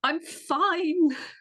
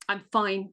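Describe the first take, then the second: First: It is said in a thrilled, delighted tone. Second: It is said in an unhappy, unenthusiastic tone.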